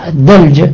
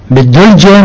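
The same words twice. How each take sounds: First: الدلجة with a short a after the d; A vowel in الدلجة. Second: بالدلجة with a short u after the d; U vowel in بالدلجة. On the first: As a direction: say الدلجة as "ad-dalja". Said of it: "نقرأها بالفتح". (الدلجة بفتح الدال) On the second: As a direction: say بالدلجة as "bid-dulja". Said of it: "إذا قرأتها". (بالدلجة بضم الدال) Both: Shown as a demonstration.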